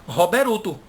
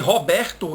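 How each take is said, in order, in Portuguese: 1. Uma vogal u é inserida depois do r. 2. Ele é dito do jeito português simples.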